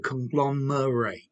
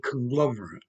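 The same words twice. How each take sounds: First: It is said with the verb pronunciation. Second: It is said with the noun pronunciation. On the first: It names the act of bringing things together. "or the verb to conglomerate" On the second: It names a thing made of mixed parts. "The noun"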